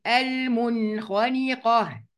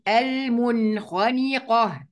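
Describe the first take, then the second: First: المنخنقة recited slowly, the noon before خ fully sounded; slow tajweed reading of المنخنقة; clear izhar. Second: المنخنقة slow again, noon clearly sounded; slow, careful المنخنقة; clear izhar. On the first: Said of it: "يبقى هننطقها ازاي؟". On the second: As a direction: repeat المنخنقة with a distinct noon. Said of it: "طب ودي؟". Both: Shown as a demonstration.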